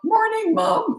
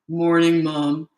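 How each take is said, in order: First: The voice cracks while speaking. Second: The voice is steady and deeper.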